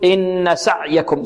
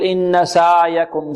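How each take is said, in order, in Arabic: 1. صوت العين منقطع فجأة. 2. صوت العين ممدود أكثر من اللازم. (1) "يعطيها صفة الشدة، وهذا خطأ" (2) "يبالغ في الرخاوة"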